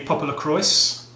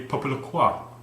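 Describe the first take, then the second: First: It is said with a plain English accent. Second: It is said with a French accent. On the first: "It could be" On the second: "You could pronounce it with a French accent"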